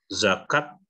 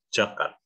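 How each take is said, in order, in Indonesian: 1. Kata ini diawali bunyi z. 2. Kata ini diawali bunyi j.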